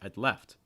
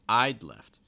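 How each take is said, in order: First: The stress falls on the second word. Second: The stress falls on the first word. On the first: "notice the stress typically falling on the participle" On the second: "I'm stressing the contraction"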